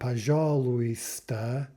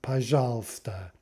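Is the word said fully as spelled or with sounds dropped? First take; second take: fully spelled; sounds dropped. First: Every letter is pronounced, including the silent ones. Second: Two sounds are dropped, giving a shorter word. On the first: The speaker calls it wrong. "It's not пожалуйста as it's written" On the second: The speaker calls it right. "but пожалуйста"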